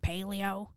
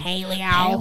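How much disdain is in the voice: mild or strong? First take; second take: mild; strong. First: The word carries a mild note of disdain. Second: The word carries a strong note of disdain. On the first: "I say it like that because" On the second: "say it with more disdain"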